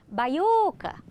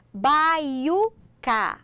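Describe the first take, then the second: First: "Baiuca" called out in one go, lingering on the "u"; called like a name. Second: "baiuca" in slow, stretched, separate syllables. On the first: Teacher showing how to find the stressed syllable, called like a name. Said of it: "chamar a palavra como se ela fosse um nome". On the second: Teacher introducing an example word, syllable by syllable. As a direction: pull "baiuca" apart piece by piece. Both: Shown as a demonstration.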